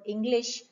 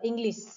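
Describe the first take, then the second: First: The word ends with an sh sound. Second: The word ends with an s sound.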